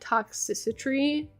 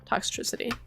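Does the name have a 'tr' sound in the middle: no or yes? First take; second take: no; yes. First: The middle is said without a 'tr' sound. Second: The middle is said with a 'tr' sound. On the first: The speaker calls it wrong. "I always pronounce it Toxicity" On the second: The speaker calls it right. "but it's Toxtricity"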